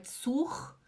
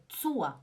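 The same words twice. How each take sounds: First: ZUR ending in a raspy "kh"; "tsookh", rough breathy R; wrong throaty R. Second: ZUR as "TSOO-ah"; correct soft R. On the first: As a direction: scrape the final R of zur. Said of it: "não é zur". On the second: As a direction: melt the R of zur into an A. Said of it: "é zur". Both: Shown as a demonstration.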